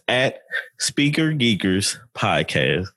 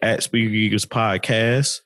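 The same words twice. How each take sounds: First: It is said slowly. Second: It is said fast.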